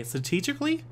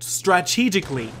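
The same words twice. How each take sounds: First: "Strategically" without its first r, rising as a question; unsure pronunciation. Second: "Strategically" as "stra-TEE-jik-lee", with the r, falling; careful pronunciation attempt. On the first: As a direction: try "Strategically" as "stuh-TEE-jik-lee", unsure. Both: Real, not acted. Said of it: "I still think I'm fucking saying it wrong".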